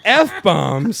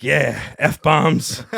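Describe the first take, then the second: First: Loud, high, disbelieving question; mock-appalled outburst; horrified echo. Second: Emphatic imitated confirmation, loud; acted messenger spelling it out; confirming reply. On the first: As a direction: repeat it in acted dismay. Horrified echo of the runner's answer. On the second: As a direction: deliver the bad news as a punchline. Runner confirms, then is echoed.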